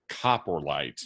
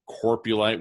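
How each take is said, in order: First: The R sound comes after the P. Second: The R sound comes before the P. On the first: The speaker calls it right. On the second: The speaker calls it wrong.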